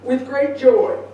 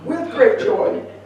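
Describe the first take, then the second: First: It is said flatly, without joy. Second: It is said with audible joy.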